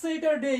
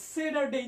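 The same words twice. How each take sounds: First: স্যাটারডে with a clear t, "say-tar-day"; loud model of স্যাটারডে, crisp t in the middle; t pronunciation. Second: স্যাটারডে with d for t, "say-dar-day"; teacher's alternative "say-DAR-day" for স্যাটারডে; d pronunciation. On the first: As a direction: sound the t in স্যাটারডে. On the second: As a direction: voice the middle of স্যাটারডে as a d. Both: Shown as a demonstration. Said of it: "দুটোই উচ্চারণ করা যায়".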